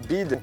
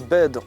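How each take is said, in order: First: It is said in a South Island New Zealand accent. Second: It is said in a standard English accent. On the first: "on dit bid" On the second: "On ne dit pas bed"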